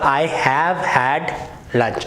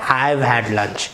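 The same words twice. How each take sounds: First: The word have is said in full. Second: The word have is shortened to 've.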